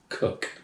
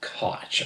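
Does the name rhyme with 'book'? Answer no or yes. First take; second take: yes; no. First: The name rhymes with 'book'. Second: The name does not rhyme with 'book'. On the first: The speaker calls it right. "It's pronounced Cook, per the man himself" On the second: The speaker calls it wrong. "I know some people say Koch"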